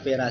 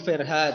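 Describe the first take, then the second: First: No h sound is pronounced in the name. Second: An h sound is pronounced in the name. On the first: The speaker calls it right. "Ternyata hanya tidak dibaca. Ternyata panggilannya hanya Vera saja" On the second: The speaker calls it wrong. "Pertama saya panggilnya, saya nyebutnya Bu Verha"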